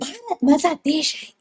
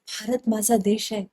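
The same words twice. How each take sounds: First: It is said loudly, almost shouting. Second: It is said warmly with moderate energy. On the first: The speaker calls it wrong. "आत्ताचे news anchors म्हणजे" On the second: The speaker calls it right. "तुमचा चेहरा हसरा पाहिजे"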